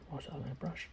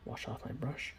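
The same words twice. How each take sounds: The two takes are said the same way.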